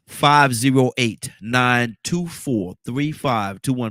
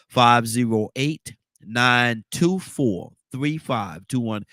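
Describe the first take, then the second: First: The number is said quickly. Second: The number is said slowly.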